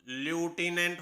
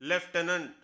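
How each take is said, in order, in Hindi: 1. पहला अक्षर 'loo' जैसा लगता है। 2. पहला अक्षर 'lef' जैसा लगता है। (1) "अब ल्यूटिनेंट होना चाहिए" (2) "इसकी सही प्रोनाउंसिएशन है लेफ्टिनेंट"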